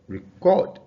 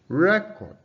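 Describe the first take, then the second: First: The stress is on the second syllable. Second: The stress is on the first syllable. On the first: It is a verb meaning to save sound or video. "it occurs on the second syllable when it is a verb" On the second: It is a noun meaning a document. "the stress is on the first syllable"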